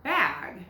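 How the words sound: The word is said in a Utah accent. "I pronounce it bag here in Utah"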